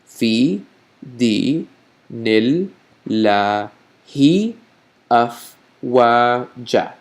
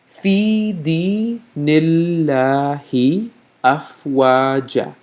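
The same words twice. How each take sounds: First: The phrase is said slowly and deliberately. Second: The phrase is said at a normal pace.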